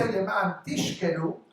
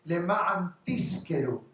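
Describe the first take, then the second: First: The verb is said with an sh sound. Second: The verb is said with an s sound. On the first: It means to get drunk. "it means to get drunk" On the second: It means to rent. "For you to lease, to rent"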